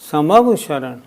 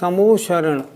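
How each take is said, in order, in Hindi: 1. बीच में 'va' का अलग अक्षर है। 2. बीच में एक 'o' ध्वनि है, 'va' नहीं। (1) "नहीं नहीं, समवशरण" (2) "हम सब लोग उसका उच्चारण करते हैं समोशरण, नहीं नहीं"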